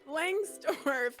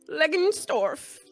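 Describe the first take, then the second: First: The surname begins with the sound 'lang'. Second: The surname begins with the sound 'leg'. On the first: The speaker calls it right. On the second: The speaker calls it wrong.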